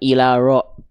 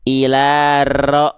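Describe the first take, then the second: First: The r has no trill, it is blurred. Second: The r is trilled with many long vibrations. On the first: "disamarkan ilaro, nggak" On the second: "ah nggak gitu"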